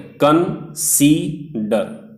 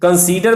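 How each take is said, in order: First: "कन, सी, डर" in three separate beats with pauses; syllable by syllable. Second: Said in the usual way. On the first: Shown as a demonstration. Teacher showing students three vowels in consider, syllable by syllable. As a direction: break it into कन, सी, डर, one vowel each. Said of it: "कंसीडर में तीन vowels". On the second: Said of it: "pronounce हो रहे हैं".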